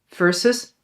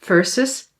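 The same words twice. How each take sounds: The two takes are said the same way.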